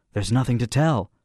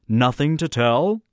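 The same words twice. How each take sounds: First: Said in the usual way. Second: "Nothing to tell" slow, rising high on "tell"; incredulous echo. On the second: Acted. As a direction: question "Nothing to tell", stretched and lifted at the end. Brinker echoes it as a question.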